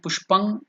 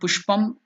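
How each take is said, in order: First: The word ends with an ng sound. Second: The word ends with an m sound. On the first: "it is not" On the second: "It is not"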